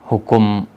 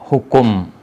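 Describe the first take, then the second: The two takes are said the same way.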